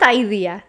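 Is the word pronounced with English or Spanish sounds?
English. The word is said with English vowel sounds. The speaker calls it wrong.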